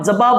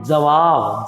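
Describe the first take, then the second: First: जवाब said as jabab, with b sounds; a loose b in जवाब; wrong pronunciation. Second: A careful w in जवाब; correct pronunciation. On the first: Teacher shows the jabab students should avoid. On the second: Teacher gives students the proper jawab. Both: Shown as a demonstration. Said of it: "हम जवाब बोलते नहीं".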